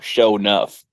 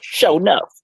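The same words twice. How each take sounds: First: The name is said flatly, with little energy. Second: The name is said loudly, with lots of energy. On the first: The speaker calls it wrong. "you can't just go" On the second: The speaker calls it right.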